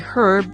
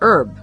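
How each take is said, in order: First: The word begins with an audible H sound. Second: The word begins with a vowel, no H sound. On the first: "H is pronounced" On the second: "H is not pronounced, it is a silent H"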